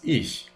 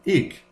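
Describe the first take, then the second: First: The ending is said with a Standard German accent. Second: The ending is said with a South German accent. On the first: "but in Standard German, it is ich" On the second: "In South German, this can be ich"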